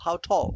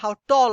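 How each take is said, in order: First: The t is breathy, close to an aspirated th. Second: The t is plain, with no breathy release. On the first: "ঠ এর একটা touch আছে" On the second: "অনেকেই বলে how tall are you, একদম pure টি।"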